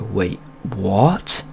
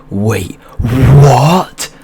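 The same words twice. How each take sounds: First: Mildly puzzled question, rising at the end; confused double take. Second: Loud, high drawn-out WHAT swooping upward; hammed-up stunned double take, blown right up; exaggerated disbelief. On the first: Retold or imitated. Storyteller replays his looping reply to his friend, mildly baffled. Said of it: "That's what I'd say". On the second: Storyteller shows his looping reply to his friend, exaggerated shock. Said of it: "Like that for about thirty minutes".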